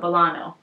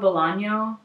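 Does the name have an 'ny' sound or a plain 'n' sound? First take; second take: plain n; ny sound. First: The name is said with a plain 'n' sound. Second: The name is said with an 'ny' sound. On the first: The speaker calls it right. "no Ñe" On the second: The speaker calls it wrong. "no, Bolano, not Bolaño"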